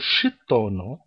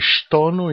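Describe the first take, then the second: First: An extra i vowel separates sh and t. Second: The sh and t sounds join directly. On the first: The speaker calls it wrong. "para não colocar um i aqui no meio entre o sho e o to, que não, não é correto" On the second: The speaker calls it right. "é stono"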